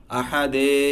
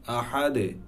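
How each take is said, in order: First: আহাদে with the final "de" dragged out long; wrong, held ending. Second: আহাদে with a short light "de" release; touch the দ and let it bounce briefly in আহাদে; light qalqalah. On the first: Teacher showing what to avoid, over-held end of আহাদে. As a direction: hold on to the "dee" of আহাদে. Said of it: "এভাবে বলে ধরেও রাখবো না". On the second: Teacher repeating the word, light echo ending on আহাদে. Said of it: "হালকা সাউন্ডটা দে এর মতো আসবে". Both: Shown as a demonstration.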